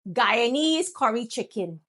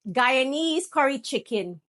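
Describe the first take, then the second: First: It is said in a Guyanese accent. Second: It is said in a Guyanese accent.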